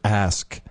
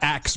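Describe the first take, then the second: First: The word ends with the sounds s then k. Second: The word ends with the sounds k then s. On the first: The speaker calls it right. "How about that being the universally mispronounced word" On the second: The speaker calls it wrong. "It's not axe"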